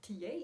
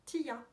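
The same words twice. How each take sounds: First: T A ending in "yay", "tee-yay"; unsure second pronunciation. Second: Tia ending in "ya", "tee-ya"; trying a pronunciation. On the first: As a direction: try T A as "tee-YAY", questioning. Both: Real, not acted. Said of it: "Je ne sais pas".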